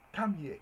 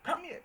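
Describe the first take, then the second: First: Firm call, slightly louder; teacher voicing a firm order; command. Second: Much higher, ringing call; excited summons, pitched way up; exclamatory command. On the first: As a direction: summon someone over. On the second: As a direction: call out to them from across the room. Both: Shown as a demonstration. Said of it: "that's a command".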